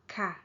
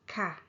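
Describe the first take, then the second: First: The word is said with a falling tone. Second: The same.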